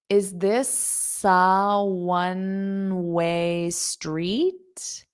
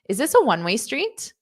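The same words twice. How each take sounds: First: The sentence is said slowly. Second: The sentence is said at a normal speed.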